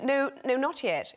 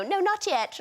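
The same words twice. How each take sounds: First: Re-enacting a line said to a dolphin, lightly raised pitch; lightly acted call to a dolphin; mock movie command. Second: High, playful kids' mimicry; children impersonating mum. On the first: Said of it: "where I say to the, to the dolphin". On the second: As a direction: mimic children parodying their mother, pitched right up. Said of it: "they quite like impersonating me".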